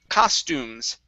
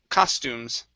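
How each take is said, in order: The two takes are said the same way.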